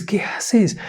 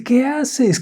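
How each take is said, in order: First: High urgent whisper. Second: High, startled shout; alarmed mother. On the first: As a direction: hush it, urgent and breathless. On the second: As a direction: catch the child in danger. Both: A narrator's reading. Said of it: "Corre y le dice".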